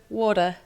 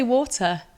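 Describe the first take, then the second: First: American "water" with a soft d; "water" with the t turned to d; American pronunciation. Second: British "water" with a crisp t; "water" as wor-tuh, English style; British pronunciation. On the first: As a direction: say "water" the American way, as wah-der. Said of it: "So you've not gone to". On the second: Asked how she says the word. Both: Shown as a demonstration.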